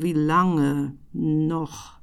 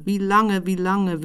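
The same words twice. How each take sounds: First: Very slow drawn out. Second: Said in the usual way. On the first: Shown as a demonstration.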